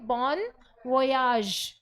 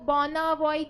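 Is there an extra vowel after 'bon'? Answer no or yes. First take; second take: no; yes. First: It sounds like 'bon voyage', without an extra vowel. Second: It sounds like 'bona voice', with an extra vowel. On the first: The speaker calls it right. "इसको आप बोलेंगे बॉन वोयाज" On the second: The speaker calls it wrong. "इसको बॉना वॉइज जैसा कुछ नहीं बोलेंगे"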